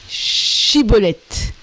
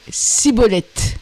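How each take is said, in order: First: The word begins with a 'sh' sound. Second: The word begins with an 's' sound. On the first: The speaker calls it right. "dis Chiboleth" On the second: The speaker calls it wrong. "N'étant pas prêt à parler correctement"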